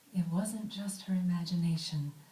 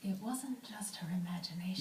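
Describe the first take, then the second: First: It is said with a fuller voice. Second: It is said with very little voice.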